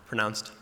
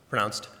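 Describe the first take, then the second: The two takes are said the same way.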